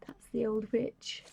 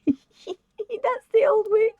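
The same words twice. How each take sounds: First: Whispered aside. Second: Laughing, high. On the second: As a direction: giggle it out, much higher and slower. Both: Real, not acted.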